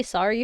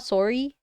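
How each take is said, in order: First: "sorry" with an open AH vowel, SAH-ree; unaccented "sorry". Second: "sorry" with a rounded O, SORE-ee; accented "sorry". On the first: Streamer proving her accent is mild, open-voweled "sorry". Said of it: "I think I say sorry fine". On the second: Streamer showing the accent she avoids, rounded "sorry". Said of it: "It's not sorry". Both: Shown as a demonstration.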